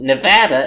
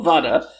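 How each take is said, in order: First: The middle vowel has the local Anglicized sound. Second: The middle vowel has the Spanish sound. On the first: This is how the locals prefer it. "in Nevada, they prefer to call it Nevada" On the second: This follows the original Spanish word. "it's probably called Nevada"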